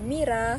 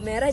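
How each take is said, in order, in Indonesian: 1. Vokal pertama bunyi i. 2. Vokal pertama bunyi e.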